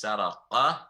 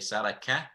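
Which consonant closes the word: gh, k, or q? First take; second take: q; k. First: The last consonant is a deep throat q sound. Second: The last consonant is a plain k sound. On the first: The speaker calls it right. "It is Saraqa" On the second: The speaker calls it wrong. "Qaf should not be mixed with Kaf. So we shouldn't say Saraka"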